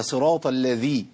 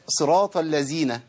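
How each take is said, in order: First: صراط الذي with a voiced ذ, tongue tip out, slow; correct reading demo. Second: صراط الذين with the ذ turned into z, slow; wrong reading demo. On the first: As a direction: model the right voiced ذ in الذي, slowly. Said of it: "أيوة كده يا أخي، بس ما طلعش فيها نفس". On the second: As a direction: demonstrate the mistaken z in الذين, drawn out. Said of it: "طب اللي يقول". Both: Shown as a demonstration.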